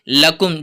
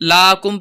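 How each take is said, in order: First: The first vowel is short and quick. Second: The first vowel is drawn out long. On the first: The speaker calls it right. "लकुम जल्दी पढ़ेंगे" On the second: The speaker calls it wrong. "इसमें हम इसको लाकुम लाकुम पढ़ जाते हैं, हालांकि यहाँ पर लाकुम नहीं पढ़ेंगे"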